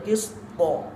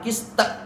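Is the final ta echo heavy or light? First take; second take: heavy; light. First: The final ta echoes with a dark o-vowel. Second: The final ta echoes with a light e-vowel. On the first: The speaker calls it right. "Harus isti'la" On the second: The speaker calls it wrong. "bukan kiste"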